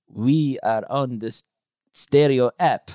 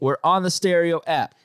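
First: It is said in a put-on sexy voice. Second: It is said in a plain voice.

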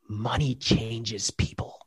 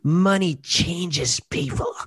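First: It is said in a plain, neutral tone. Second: It is said with dripping, sneering sarcasm.

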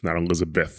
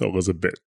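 First: The name ends with a th sound. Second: The name ends with a plain t sound. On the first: The speaker calls it wrong. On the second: The speaker calls it right. "they couldn't just add that extra H"

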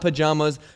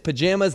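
First: The middle vowel differs from the one in 'jam'. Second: The middle vowel sounds like the one in 'jam'. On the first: The speaker calls it wrong. "not pajamas" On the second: The speaker calls it right. "it's pajamas, because you say jammies"

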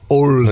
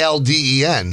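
First: The first vowel is a strong rounded 'oh' sound. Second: The first vowel is an open 'ah' sound. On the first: "He wants the O hit hard" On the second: "You're saying Alden"

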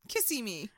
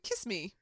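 First: The name is said in three syllables. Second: The name is said in two syllables. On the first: The speaker calls it right. "but it's kissy me" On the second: The speaker calls it wrong. "I was like"

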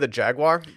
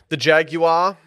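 First: Jaguar is said with an ordinary American pronunciation. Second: Jaguar is said with a British pronunciation.

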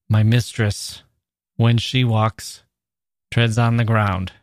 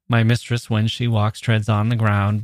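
First: It is read slowly, pausing at each comma. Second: It is read quicker, without pausing at commas.

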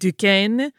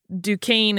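First: The name has a softer, French-style vowel. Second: The name has a harder, Americanized vowel. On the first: "if you hear someone who is a French speaker pronounce it ... where that A sound is a little softer" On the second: "in that sort of harder A sound Americanized style"

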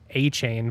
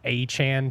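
First: The second syllable has a long 'ay' vowel. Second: The second syllable has a short 'a' vowel. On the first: This is how the speaker always assumed the name was said. "I always thought it was A-Chain" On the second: This is how the speaker has recently heard the name is said. "now I've heard it's A-Chan, potentially, is how you pronounce it"

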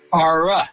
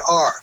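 First: It is said with an extra trailing vowel. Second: It is said as one plain syllable. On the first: "would say R-a" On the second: "you pronounce it like it was meant to be pronounced. You say R"

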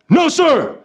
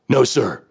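First: It is said a little louder. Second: It is said strongly but not too loudly.

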